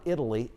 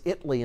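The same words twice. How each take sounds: First: It is said the usual way, as for the country. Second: It is said the local way, as for the Texas town. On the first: This is how the country's name is said. The speaker calls it wrong. "It's not Italy" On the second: This is how the Texas town's name is said. The speaker calls it right. "it's Italy in Texas"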